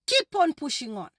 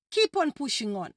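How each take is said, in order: Both takes have the same delivery.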